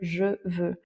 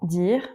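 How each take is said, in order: First: The vowel in 'je' is fully pronounced. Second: The vowel in 'je' is dropped entirely. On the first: The speaker calls it wrong. "on va pas forcément à l'oral dans la vitesse dire « je veux »" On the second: The speaker calls it right. "le E qu'il y a à la fin, on ne le prononce pas, il ne s'entend pas"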